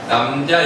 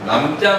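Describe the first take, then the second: First: The j sound is plain and lax. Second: The j sound is tensed and hard. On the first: It is the noun meaning a man. "그냥 남자지" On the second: It is a verb stem with an ending. "어간 어미인 경우에는 남자가 되는데"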